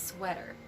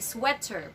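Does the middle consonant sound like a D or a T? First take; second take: D; T. First: The middle consonant is a soft D-like sound. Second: The middle consonant is a strong, crisp T. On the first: The speaker calls it right. "but it's sweater" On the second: The speaker calls it wrong. "Do not say sweater"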